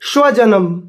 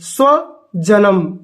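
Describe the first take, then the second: First: The word begins with an 'sh' sound. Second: The word begins with a plain 's' sound. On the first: A dog. The speaker calls it wrong. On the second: One's own kin. The speaker calls it right.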